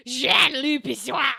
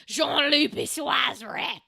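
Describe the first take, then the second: First: Slow, loud mock gruff French growl; gruff French accent. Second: A hammed-up gruff French voice, slow and loud; gruff French accent. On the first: Shown as a demonstration. Streamer showing chat her gruff fake French, slow and loud. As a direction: growl the name like a gruff Italian man. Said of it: "I'm just like". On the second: Streamer hamming up a French name for chat, mock gruff accent. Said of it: "I love how my French is like a gruff Italian man".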